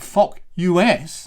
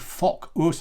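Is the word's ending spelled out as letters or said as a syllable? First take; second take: letters; syllable. First: The ending is spelled out as separate letters. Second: The ending is said as one syllable, 'us'. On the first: The speaker calls it wrong. "not fock U S. No, that would be very rude" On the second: The speaker calls it right. "But we do want to say fock us"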